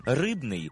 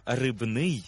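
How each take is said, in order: First: Рибний with РИБ stressed; stress on first syllable. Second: Рибний with the ending НИЙ stressed; stress on second syllable. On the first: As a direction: hit РИБ in Рибний, made of fish. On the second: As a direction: land on НИЙ in рибний, rich in fish. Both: Shown as a demonstration. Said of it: "за допомогою наголосу змінюється своє значення".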